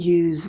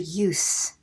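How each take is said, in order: First: The final S sound is voiced, like a z. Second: The final S sound is voiceless, like an s. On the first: It names the action of using something. "if I'm going to make that same word into a verb, I'm going to vocalize it" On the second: It names the act of using something. "when I do a noun of that word, then it is going to be voiceless"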